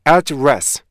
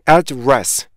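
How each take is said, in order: No difference in how they are said.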